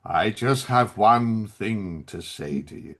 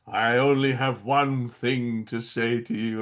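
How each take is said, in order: First: Low, slow, heavy with gravitas; grave villain line. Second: Low, slow, heavy villain delivery; grave and dramatic, dragged out; big gravitas. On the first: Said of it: "he goes". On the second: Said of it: "really with big gravitas and everything". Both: Retold or imitated. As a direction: intone it like a solemn movie villain.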